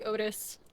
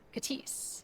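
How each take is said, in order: First: The name begins with a vowel sound. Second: The name begins with a K sound.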